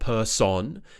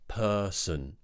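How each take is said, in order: First: The second syllable has a full vowel. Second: The second syllable has a reduced schwa vowel. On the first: The speaker calls it wrong. "it's not person" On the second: The speaker calls it right. "it's actually a schwa sound. Relaxed mouth"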